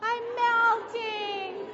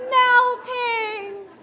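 First: High, drawn-out witch wail on melting; slow witch wail. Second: High, much louder shriek of melting; loud witch shriek. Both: Retold or imitated. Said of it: "what the witch said".

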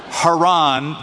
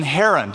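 First: Haran as hah-RAHN, stress last; place name pronunciation. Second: Haran as HAIR-un, stress first; person's name pronunciation. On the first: Telling the class the place name, Haran stressed on last syllable. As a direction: say Haran with a long final RAHN. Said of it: "gonna call the place". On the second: Telling the class the person's name, Haran stressed on first syllable. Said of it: "but the person Haran". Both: Shown as a demonstration.

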